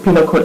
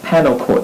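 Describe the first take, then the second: First: The first word is said as 'peenal'. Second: The first word is said as 'panel'. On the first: The speaker calls it right. "he pronounces penal code" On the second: The speaker calls it wrong. "as panel code"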